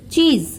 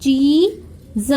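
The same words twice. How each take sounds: First: Said in the usual way. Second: चीज sounded out slowly, long ee then separate z. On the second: Shown as a demonstration. Teacher explaining double E, चीज with long ee. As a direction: stretch चीज into chee, then z. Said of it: "double ई है तो बड़ी ई की".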